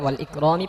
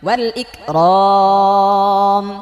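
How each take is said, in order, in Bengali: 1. শব্দটি শেষ হয়েছে চূড়ান্ত i স্বরধ্বনি দিয়ে। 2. শব্দটি শেষ হয়েছে ব্যঞ্জন m দিয়ে। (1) "এটা যদি এভাবে পড়েন তাহলে ওয়াল ইকরামি পড়তে পারেন" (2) "এখানে ওয়াকফ দিয়ে পড়েন"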